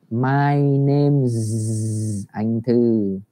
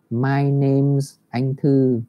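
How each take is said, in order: First: Very slow, name's ending on a long buzzing z; clear z in name's. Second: Slow, with a clear z at the end of name's; z sound in name's. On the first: Teacher asks the class to listen to the z, very slow. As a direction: stretch out the z of name's. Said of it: "cả lớp mình nghe này". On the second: Teacher shows the z sound in name's, slow and clear. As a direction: buzz the z in name's. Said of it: "có một cái âm z". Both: Shown as a demonstration.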